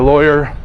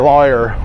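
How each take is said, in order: First: The word is said plainly without a drawl. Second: The word is said with a slow drawl. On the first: This is how people in Miami say it. "We say lawyer" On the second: This is how people elsewhere say it. "We don't say lawyer"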